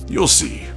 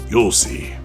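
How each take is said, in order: Both takes have the same delivery.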